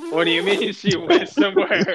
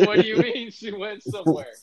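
First: Louder, higher, laughing through the question; can't believe it, half laughing; laughing disbelief. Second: Higher, sharper repeat of the question; incredulous repeat. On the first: Asking Adam where the cousin went, laughing disbelief. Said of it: "And I'm like". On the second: Repeating the question to Adam, higher insistent disbelief. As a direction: press him again, more insistent. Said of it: "I'm like". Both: Retold or imitated.

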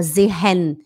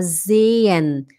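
First: "sehen" as ze-HEN with audible h; "sehen" split by a spoken h; wrong sounded h. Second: "sehen" as zay-en with a long e; slow "sehen", e lengthened; silent h. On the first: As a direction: breathe an h inside "sehen". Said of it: "a gente não fala sehen". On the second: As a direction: slide through "sehen" without the h. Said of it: "a gente fala sehen". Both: Shown as a demonstration.

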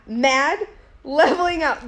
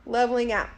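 First: Mounting anger. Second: Said in the usual way. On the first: Retold or imitated. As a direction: step it up, getting madder. Second step of retold mounting anger.

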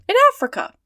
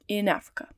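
First: High, loud amazed exclamation; astonished. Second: Said in the usual way. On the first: A narrator's reading. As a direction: burst out in disbelief. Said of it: "repeated Passepartout".

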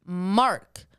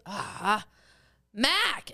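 First: "Mark" loud and firm, R sounded, falling; careful repeat. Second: Put-on Boston accent. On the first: Retold or imitated. Dad correcting pizza staff, firm "Mark" with R. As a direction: repeat "Mark" plainly with a clear R. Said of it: "And he goes". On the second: Dad relenting to pizza staff, Boston accent. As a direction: give in and say "Mac" Boston style. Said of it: "he didn't sound like my dad anymore".

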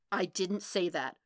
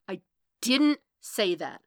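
First: Firm denial at normal volume; contained denial. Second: Louder, insistent denial hammering DIDN'T; angry denial. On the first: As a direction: deny it without raising the voice. Matt's first denial, held in. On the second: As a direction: punch DIDN'T loudly as the temper rises. Denial escalates in the quarrel. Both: Acted.

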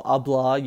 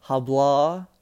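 First: Hablar as "a-BLA", starting straight on the vowel; silent H in hablar. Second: Hablar opened with a breathed English H, "ha-BLA"; sounded H in hablar. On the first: Correcting the word for listeners, hablar with silent H. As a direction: leave the H off the front of hablar. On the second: Teaching listeners Spanish for speak, hablar with the H sounded. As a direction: pronounce the written H at the start of hablar. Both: Shown as a demonstration. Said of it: "you still keep the H's silent".

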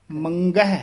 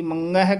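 First: ਮੰਗਹਿ with a fully sounded hard g; clear g. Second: ਮੰਗਹਿ with ng swallowing the g; mistaken nasal. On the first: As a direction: let the g ring out in ਮੰਗਹਿ. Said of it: "ਗੱਗਾ ਸ਼ੁੱਧ ਉਚਾਰਨ ਕਰਨਾ". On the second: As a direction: mispronounce ਮੰਗਹਿ with only ng. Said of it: "ngੰਗਾ ਲਾ ਜਾਂਦੇ ਹਨ". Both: Shown as a demonstration.

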